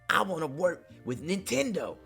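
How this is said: It is said in a put-on imitation voice.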